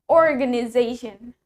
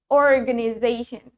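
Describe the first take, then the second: First: It is said in an American accent. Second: It is said in an American accent.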